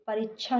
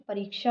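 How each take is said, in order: First: परीक्षा said as परीच्छा; mistaken consonant. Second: Said in the usual way. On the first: Shown as a demonstration. Teacher rejecting a common error, mistaken consonant. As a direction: put chh for क्ष in परीक्षा. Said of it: "नहीं". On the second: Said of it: "होता है".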